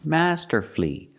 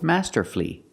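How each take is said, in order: First: The word has three syllables, ending in 'flee'. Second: The same.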